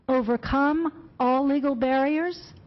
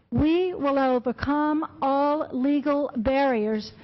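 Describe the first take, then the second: First: Slow, weighted "Overcome all legal barriers?" with a rising end; emphasized repeat. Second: Said in the usual way. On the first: Shown as a demonstration. To the county commission, stressing the quoted threat, slow and rising. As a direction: lean on "Overcome" and let the question hang. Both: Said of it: "Let me emphasize that".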